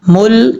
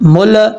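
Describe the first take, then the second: First: The L is held with the tongue kept in place. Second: The L is released quickly with a bouncing echo. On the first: The speaker calls it right. "यह है सही तरीका" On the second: The speaker calls it wrong. "अगर आप कलकला कर रहे हैं"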